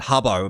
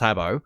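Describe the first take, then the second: First: The first vowel sounds like the vowel in 'cup'. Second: The first vowel sounds like the vowel in 'cat'. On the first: This is how people commonly said it back then. The speaker calls it wrong. "I think they pronounced it Hubbo back then" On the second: This is the official way to say it. The speaker calls it right. "the actual pronunciation was Habbo"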